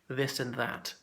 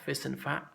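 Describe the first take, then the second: First: Each word begins with a th sound. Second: Each word begins with an f sound. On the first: The speaker calls it right. "We definitely pronounce the T H" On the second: The speaker calls it wrong. "or fis and fat, which is um, more like um, Cockney"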